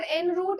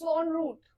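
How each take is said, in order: First: The first syllable sounds like 'en'. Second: The first syllable sounds like 'on'. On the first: The speaker calls it wrong. "It's not एन रूट" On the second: The speaker calls it right. "It's ऑन रूट"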